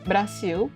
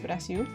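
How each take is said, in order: First: It is said with a plain English accent. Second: It is said with a Portuguese accent.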